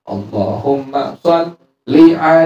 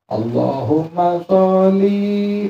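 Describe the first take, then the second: First: The final vowel of sholli is kept short. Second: The final vowel of sholli is drawn out long. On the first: The speaker calls it right. "Seharusnya apa?" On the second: The speaker calls it wrong. "Linya dipanjangin lam itu"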